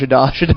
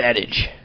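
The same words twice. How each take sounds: First: It is pronounced like a French word. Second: It is pronounced the ordinary English way. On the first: The speaker calls it wrong. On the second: The speaker calls it right.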